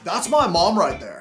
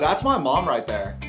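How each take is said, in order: First: It is said with exaggerated, dramatic emotion. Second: It is said plainly, with little emotion.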